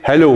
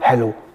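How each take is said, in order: First: It is said at a higher pitch. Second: It is said at a lower pitch.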